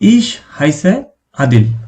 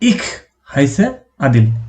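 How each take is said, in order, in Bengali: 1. প্রথম শব্দটি নরম 'sh' ধ্বনিতে শেষ হয়। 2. প্রথম শব্দটি খসখসে 'kh' ধ্বনিতে শেষ হয়। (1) "ইশ শব্দটাই বেশি প্রচলিত" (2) "ইখ এটা বলাটা একটু কষ্টদায়ক"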